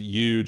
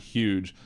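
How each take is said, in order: First: The word begins with a Y sound. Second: The word begins with an H sound. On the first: "actually says huge and not huge. I made sure to put huge with a Y at the beginning" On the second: "and not huge"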